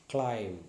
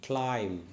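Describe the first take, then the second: No difference in how they are said.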